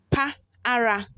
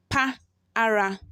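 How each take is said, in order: The two takes are said the same way.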